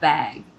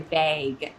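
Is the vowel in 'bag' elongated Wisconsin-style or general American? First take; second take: general American; Wisconsin. First: The vowel is short in a general accent. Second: The vowel is stretched in a Wisconsin accent.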